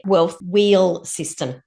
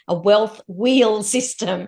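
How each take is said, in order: First: Slow, low, 'wheel' coming out like 'will'; wheel like will. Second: Slowly restated with a long ee in 'wheel'; careful clear wheel. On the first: Guest trips on the program's name, 'wheel' like 'will'. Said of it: "That sounded like I said will". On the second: Guest corrects a slip to the host, 'wheel' said clearly. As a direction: stretch 'wheel' so it can't be 'will'. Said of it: "I did not". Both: Real, not acted.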